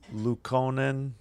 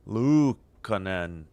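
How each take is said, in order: First: The first syllable Lu is short and unemphasized. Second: The first syllable Lu is drawn out and emphasized. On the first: The speaker calls it wrong. "before I butcher his name anymore" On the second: The speaker calls it right. "You got to overemphasize the the Lu"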